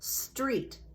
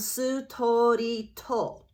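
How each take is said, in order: First: It is one syllable with a consonant cluster. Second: Vowels are inserted between and after the consonants. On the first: "only one syllable" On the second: "That's how they will pronounce the word street"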